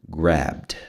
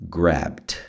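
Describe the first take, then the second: Both takes have the same delivery.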